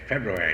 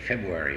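First: The first R sound is clearly pronounced. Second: The first R sound is left out. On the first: The speaker calls it right. "We have to teach them say February. Don't forget the R" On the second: The speaker calls it wrong. "So many of them say February"

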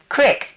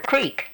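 First: The vowel is a short 'i' sound. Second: The vowel is a long 'ee' sound. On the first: This is how people up North say it. The speaker calls it wrong. "we don't say Crick" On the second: This is how people in the South say it. The speaker calls it right. "It's C-R-E-E-K"

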